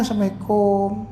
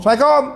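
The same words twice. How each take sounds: First: Unhurried, courteous salam; polite greeting. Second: Loud, high, abrupt salam; rough greeting. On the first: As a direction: greet politely at an easy volume. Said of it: "intonasi so". (salam dengan intonasi sopan) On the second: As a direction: fire off the greeting rudely. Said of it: "kau ni kasar". (salam kasar dan kuat) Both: Shown as a demonstration.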